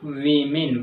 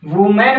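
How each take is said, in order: First: The first syllable sounds like 'wee'. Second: The first syllable sounds like 'woo'. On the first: The speaker calls it right. "इसको वीमेन बोला जाएगा" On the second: The speaker calls it wrong. "वुमेन बोलते हैं वो गलत है"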